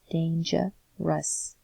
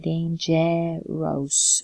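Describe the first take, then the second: First: The unstressed vowels sound like uh. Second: The unstressed vowels are full vowels. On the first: The speaker calls it right. "We say" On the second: The speaker calls it wrong. "We don't say dangerous"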